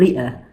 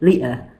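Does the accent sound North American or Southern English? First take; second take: Southern English; Southern English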